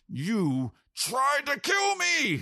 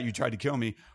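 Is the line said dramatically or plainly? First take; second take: dramatically; plainly. First: The line is milked, with heavy, drawn-out drama. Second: The line is said plainly, with no extra drama. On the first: "or you can like really milk it" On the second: "you could just say it like that"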